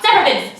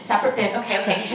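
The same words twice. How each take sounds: First: Brisk mock official command; barking TSA agent. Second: Subdued, dropping echo; flustered compliance. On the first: Airport agent instructing a traveler, mock barking. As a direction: announce the rule to the line. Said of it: "you know how they're like". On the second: Retold or imitated. Teen traveler scrambling at security, flustered echo. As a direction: mumble it back while obeying.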